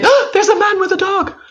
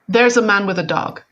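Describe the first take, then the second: First: It is said with a charged emotional spin. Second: It is said in a flat, neutral tone.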